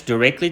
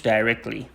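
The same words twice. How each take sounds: First: DIRECTLY as "dih-REKT-lee", short first vowel; American pronunciation. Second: DIRECTLY as "DIE-rekt-lee", first syllable like "die"; British pronunciation. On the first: Teacher recapping for Dari students, DIRECTLY the American way, "dih-REKT-lee". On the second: Teacher recapping for Dari students, DIRECTLY the British way, "DIE-rekt-lee". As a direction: open DIRECTLY on a long "die". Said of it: "در بریتیش directly". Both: Shown as a demonstration.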